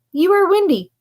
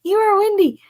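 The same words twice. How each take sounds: First: "are" pushed with a fall; stress on are. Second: "are" leaned on and falling; stress on are. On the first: Retold or imitated. Quoting the scammer's text, "are" stressed. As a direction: stress "are" in "you are windy.". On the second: Shown as a demonstration. Reading the scammer's odd line, "are" stressed. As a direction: lean into "are" in "You are windy.". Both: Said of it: "rereading the line".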